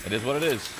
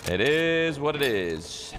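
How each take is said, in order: First: Said in the usual way. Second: Stretched slow and a bit higher; slow drawn-out resignation. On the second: Pretend. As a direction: draw it out, resigned and amused. Repeats the phrase drawn out.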